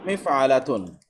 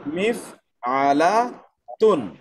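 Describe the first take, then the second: First: Said in the usual way. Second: মিফআলাতুন stretched very slowly, every syllable long; drawn out demo. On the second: Shown as a demonstration. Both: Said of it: "যন্ত্রবাচকের জন্য হলো".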